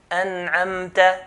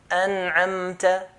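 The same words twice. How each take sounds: The two takes are said the same way.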